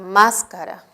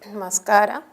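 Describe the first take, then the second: First: The stress is on the first syllable. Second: The stress is on the second syllable. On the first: "el acento se ha desplazado a una sílaba anterior" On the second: "tiene el acento en la eh, penúltima sílaba"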